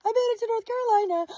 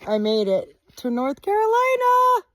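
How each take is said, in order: First: High, quick giddy squeal; squealing, fast. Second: High, loud happy yell; excited shout. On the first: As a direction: squeal it out, overjoyed. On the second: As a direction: shout it out in triumph. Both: Real, not acted. State line celebration.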